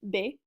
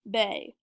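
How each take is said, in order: First: The vowel is short, a single syllable. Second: The vowel is long, almost two syllables. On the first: "when I say it in French" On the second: "when I say it in English"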